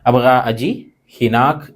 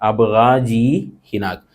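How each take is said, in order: First: The first two words are said separately. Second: The first two words run together as one.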